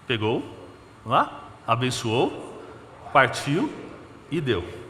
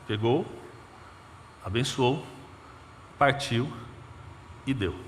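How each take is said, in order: First: Slow, sing-song teaching of each step; children's class teacher. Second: Said in the usual way. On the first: Shown as a demonstration. Preacher explaining to the church like a Sunday school class, slow sing-song. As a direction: spell it out like for small kids. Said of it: "aula agora de sala infantil". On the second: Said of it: "Como ele fez?".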